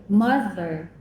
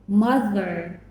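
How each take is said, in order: The two takes are said the same way.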